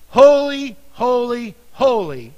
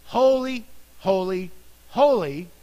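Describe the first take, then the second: First: Loud ringing proclamation of holy; crying out. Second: Said in the usual way. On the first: Acted. Seraphim crying to one another, loud ringing cry. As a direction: call out Holy like an angel across the heavens. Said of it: "one cried to another". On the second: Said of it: "in the original text".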